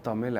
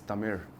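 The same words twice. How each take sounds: First: The final consonant is a plain l sound. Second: The final consonant is an r-like retroflex sound. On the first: The speaker calls it wrong. "it's not Tamil actually" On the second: The speaker calls it right. "it's Tamil"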